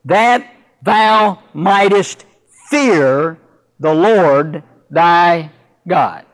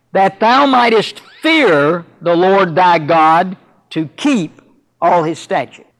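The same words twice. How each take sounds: First: Slow reading that leans on "That"; slow, deliberate pulpit quote hitting "That"; stress on That. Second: Slow quote that lifts "fear" with a rising tune; deliberate pulpit reading that weighs "fear"; stress on fear. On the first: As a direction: draw out "That thou mightest", pausing before "fear". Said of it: "He begins by saying". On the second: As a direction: lean into "fear" and let "to keep" fall away. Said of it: "note again in verse two how he words it". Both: Shown as a demonstration.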